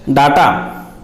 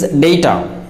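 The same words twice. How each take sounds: First: Data with "ah" in the first syllable; common mispronunciation. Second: Data with "ay" in the first syllable; correct pronunciation. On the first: Teacher showing how most speakers say it, data as DAH-ta. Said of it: "It is pronounced as". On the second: Teacher correcting most speakers, data said DAY-ta. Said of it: "but it is not data". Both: Shown as a demonstration.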